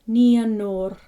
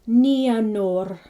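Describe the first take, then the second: The two takes are said the same way.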